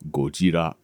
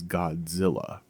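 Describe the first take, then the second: First: The name is said with a Japanese pronunciation. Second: The name is said with an American pronunciation. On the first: "The correct way to pronounce the word is Gojira. That is the way the J- Japanese pronounce it" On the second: "The way that Americans pronounce it is Godzilla"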